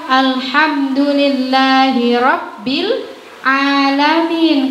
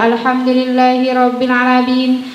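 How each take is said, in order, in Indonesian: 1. Vokal setelah 'ain dibaca panjang. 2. Vokal setelah 'ain dibaca cepat dan pendek. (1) "Harusnya ... Harusnya ainnya pan panjang" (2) "langsung dibaca terobos saja"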